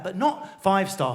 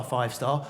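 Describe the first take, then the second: First: Said in the usual way. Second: Low, soft, knowing five star, both words drawn out; working class five star. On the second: Retold or imitated. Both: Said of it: "Comes from a working class councillor, say five star".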